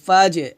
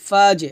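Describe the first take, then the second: The two takes are said the same way.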